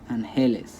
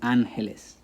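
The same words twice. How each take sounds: First: The stress is on the second syllable. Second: The stress is on the first syllable. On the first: The speaker calls it wrong. "the stress should be on he" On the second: The speaker calls it right. "it goes on an"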